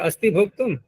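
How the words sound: It is said as a question, rising.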